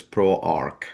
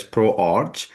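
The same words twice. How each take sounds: First: ProArch with a hard K ending; ProArch pronounced "Pro-Ark". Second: ProArch ending in a "ch" sound, as in arch; ProArch as spelled. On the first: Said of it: "but it's pronounced as ProArch". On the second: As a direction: ProArch read letter for letter, rhyming with march. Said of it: "it's spelled as ProArch". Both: Shown as a demonstration.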